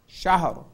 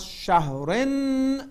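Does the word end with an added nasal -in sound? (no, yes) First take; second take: no; yes. First: The word ends on r with no vowel. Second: The word ends with a short i and nasal n. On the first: The reciter stops at this word. "When we stop, this becomes شهر" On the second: The reciter continues into the next word. "But if we cross شهرن"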